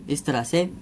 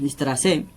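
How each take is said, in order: Both takes have the same delivery.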